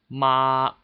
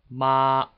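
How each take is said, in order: First: It is said with Mandarin first tone. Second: It is said with Mandarin first tone.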